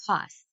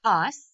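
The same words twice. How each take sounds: First: Said in the usual way. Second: A punchy single-beat Toss; clapped syllable. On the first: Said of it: "Let's tap out the word". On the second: Shown as a demonstration. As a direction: Toss said much louder as one clapped beat. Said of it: "clap it out to see if it's one syllable".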